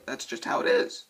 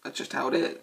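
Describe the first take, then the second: First: High-pitched repeat. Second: Said in the usual way. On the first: Shown as a demonstration. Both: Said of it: "repeated line".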